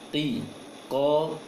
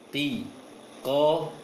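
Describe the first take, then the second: No difference in how they are said.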